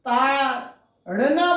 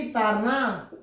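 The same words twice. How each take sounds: First: Said in the usual way. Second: "तारना" with a plain r in place of the flapped ड़; "तारना" said with an untapped, non-retroflex r; foreign-accented mispronunciation. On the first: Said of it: "बोलना है". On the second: Retold or imitated. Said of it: "तो इसको क्या बोलेंगी?".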